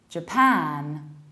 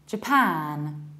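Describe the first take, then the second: First: The stress is on the second syllable. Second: The stress is on the second syllable.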